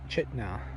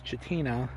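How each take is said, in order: First: The name is said with two syllables. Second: The name is said with three syllables. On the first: The speaker calls it right. "but it's pronounced Ch- Chitna" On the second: The speaker calls it wrong. "it looks like it says Chitina"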